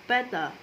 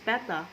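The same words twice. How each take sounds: First: The middle consonant sounds like a soft D. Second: The middle consonant is a crisp, clear T. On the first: "in American English, it might sound more like D" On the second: "in British English you can pronounce it the way it's written"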